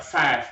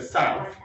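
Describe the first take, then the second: First: "south" said close to "sat", long flat vowel; "south" as "saaf", no glide in the vowel; Cockney vowel in south. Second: Said in the usual way. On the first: Shown as a demonstration. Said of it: "That vowel sound is slightly different". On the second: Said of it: "instead of".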